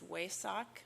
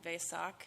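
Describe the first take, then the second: First: It begins with a W sound. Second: It begins with a V sound.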